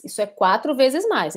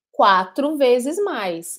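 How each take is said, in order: First: Said in the usual way. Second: "Quatro vezes mais" drawn out slowly, leaning on vezes; slow emphasis. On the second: Shown as a demonstration. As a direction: spell out each word slowly for students. ("Quatro vezes mais" dito bem devagar, com ênfase em vezes)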